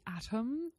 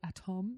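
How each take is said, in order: First: The word is pronounced with English sounds. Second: The word is pronounced with French sounds.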